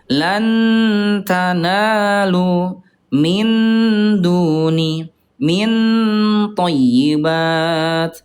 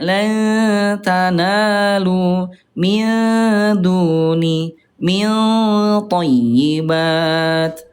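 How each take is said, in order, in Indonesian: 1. Bunyi n diucapkan penuh dan jelas. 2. Bunyi n disamarkan dengan lembut ke dalam t. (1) "yang ke satu itu dia idhar" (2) "yang betul yang ketiga, tingkat kesamaan tinggi"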